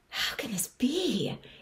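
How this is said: It sounds amazed and astonished.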